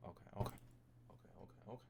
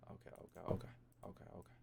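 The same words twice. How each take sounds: The two takes are said the same way.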